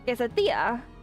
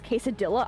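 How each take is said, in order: First: It has a fully Spanish-sounding pronunciation. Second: It has a fully English-sounding pronunciation. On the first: The speaker calls it right. "It's quesadilla" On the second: The speaker calls it wrong. "I hate when people pronounce it as quesadilla"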